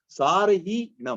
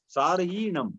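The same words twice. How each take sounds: First: सारहीणम said slowly, broken with a pause after र; सारहीणम dragged out and split after सार-; wrong reading. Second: सारहीणम read smoothly as one word, with no pause after र; सारहीणम flowing straight through in one breath; correct reading. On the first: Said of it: "आपको सारहीणम ऐसे नहीं पढ़ना है". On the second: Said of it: "तो सारहीणम ऐसे पढ़ो". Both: Shown as a demonstration.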